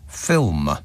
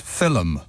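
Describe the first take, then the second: First: It is said plainly, as one syllable. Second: It is said in an Irish accent.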